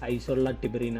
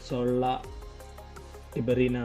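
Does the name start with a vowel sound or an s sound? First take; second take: vowel sound; s sound. First: The first vowel is kept before the s. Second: The first vowel is dropped, starting with s. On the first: This is how the locals read it. "ഐയും കൂടി ചേർത്ത് വായിച്ചിട്ട്" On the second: This is how outsiders would read it. "ഐ silent ആണ്"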